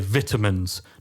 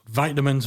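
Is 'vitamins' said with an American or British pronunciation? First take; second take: British; American. First: It is said with a British pronunciation. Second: It is said with an American pronunciation. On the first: "for people in the U K" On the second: "our transatlantic way of pronouncing words"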